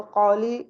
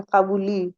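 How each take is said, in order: First: "क़ौली" with a flat open o, no glide; the habitual wrong qoli; majhool reading. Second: "क़बूली" said as qauli, a gliding into u; correct leen reading. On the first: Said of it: "मजहूल तरीका है". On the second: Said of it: "वाव ज़बर वाव लीन है". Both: Shown as a demonstration.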